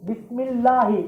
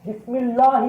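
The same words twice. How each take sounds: First: The la sound is soft and light. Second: The la sound is hard and heavy. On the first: The speaker calls it right. "மெல்லினம் சொத்தா வரணும்" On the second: The speaker calls it wrong. "வல்லினமாயிடும், கொஞ்சம் கடுமையா வந்துருது"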